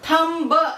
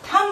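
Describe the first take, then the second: First: The word ends with an audible b sound. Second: The word ends on m, with no b. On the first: The speaker calls it wrong. "हम थम्ब ऐसे नहीं बोल रहे हैं" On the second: The speaker calls it right. "हम इसे थम बोल रहे हैं"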